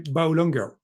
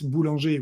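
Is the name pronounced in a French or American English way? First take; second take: American English; French. First: The name is pronounced with American English sounds. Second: The name is pronounced with French sounds. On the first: "So I have to say boulanger" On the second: "which is the, the French way"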